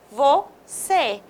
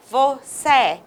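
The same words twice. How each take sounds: First: "você" with a closed ê as normal. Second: "você" with a wide-open é like vocé. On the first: Teacher giving the correct closed ê after the wrong one. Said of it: "nós temos o E fechado". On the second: Teacher showing the wrong open é to students. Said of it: "Se não tivesse o acento circunflexo e tivesse o agudo". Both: Shown as a demonstration.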